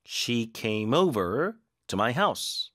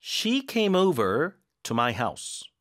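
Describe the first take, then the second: First: Very slow, weight moved onto "over"; slow, stress on over. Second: Very slow, stress on "came"; slow read-along. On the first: Teacher's second read-along, stress on "over". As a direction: lean on "over" this time. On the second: Teacher reading aloud for students to repeat. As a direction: say it slowly for students to echo. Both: Shown as a demonstration. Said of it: "어디에 힘을 줘야 되는지 한번 잘 따라 읽기".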